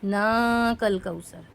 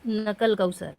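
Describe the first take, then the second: First: The vowel after the 'n' is long. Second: The vowel after the 'n' is short. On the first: The speaker calls it right. "नून को भी खींच कर पढ़ें" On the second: The speaker calls it wrong. "लोग ना के खड़ा ज़बर को नहीं पढ़ते हैं"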